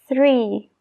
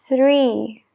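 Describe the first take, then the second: No difference in how they are said.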